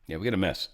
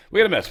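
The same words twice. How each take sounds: First: Said in the usual way. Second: Higher and louder, punching it; emphatic repeat. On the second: Shown as a demonstration. Host repeats it to viewers, higher and louder. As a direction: hit it again, much harder.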